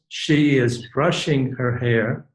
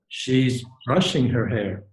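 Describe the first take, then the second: First: She is is said as two full words. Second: She is is shortened to one syllable.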